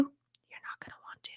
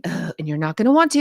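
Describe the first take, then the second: First: A soft unvoiced whisper, like a secret aside; whispered echo. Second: Said in the usual way. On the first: To a viewer dreading the declutter, whispered. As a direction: breathe it as a private warning.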